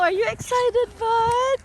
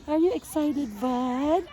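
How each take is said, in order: First: Much higher, eager sing-song question to the dog; high-pitched dog talk. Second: Said in the usual way. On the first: Real, not acted.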